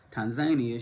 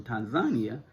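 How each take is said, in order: First: "Tanzania" as tan-ZAY-nee-uh. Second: "Tanzania" with an open a, tan-za-NEE-a. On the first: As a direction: say "Tanzania" the American way, with a long ay. Repeats name in other pronunciation. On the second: Says country name two ways. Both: Shown as a demonstration.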